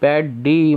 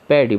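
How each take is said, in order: First: The d sound is said twice. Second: The d sound is said once. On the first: The speaker calls it wrong. "पैड डी मत पढ़ो इसको" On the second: The speaker calls it right. "पैडी पढ़ते हैं"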